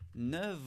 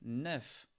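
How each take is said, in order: First: The word ends with a v sound. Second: The word ends with an f sound. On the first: "On prononce comme un V" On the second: "quand il est tout seul, on prononce le F"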